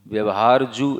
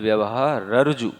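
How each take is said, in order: First: The words run together with no break. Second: There is a break after vyavahara. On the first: The speaker calls it wrong. "अगर आप व्यवहारजु व्यवहारजु ऐसे पढ़ेंगे" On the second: The speaker calls it right. "व्यवहार पे ही रुकना है"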